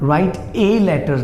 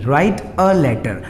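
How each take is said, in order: First: The article is a full long 'ay' sound. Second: The article is a short reduced 'uh' sound. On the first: The speaker calls it wrong. "राइट ए letter नहीं" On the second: The speaker calls it right. "उसे हम अ बोलेंगे"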